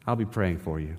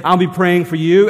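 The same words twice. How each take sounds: First: Softer and lower, an empty I'll be praying for you; hollow promise. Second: Louder and higher, a heartfelt I'll be praying for you; mean every word of it; sincere promise. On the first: Pastor imitating churchgoers' empty promise, softer and lower. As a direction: mumble the stock phrase without meaning it. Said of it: "And sometimes we mean it". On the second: Pastor showing a churchgoer who truly means it, earnest and louder. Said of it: "and we do". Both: Retold or imitated.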